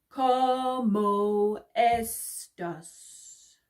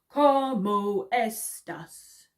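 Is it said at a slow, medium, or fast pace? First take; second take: slow; medium. First: It is said at a slower pace. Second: It is said a bit faster.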